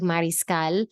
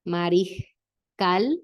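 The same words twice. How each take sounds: First: The s is a strong hissing sound. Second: The s is a soft breath of air. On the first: The speaker calls it wrong. "It doesn't sound like mariscal" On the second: The speaker calls it right. "There's a breath out instead of a strong S sound"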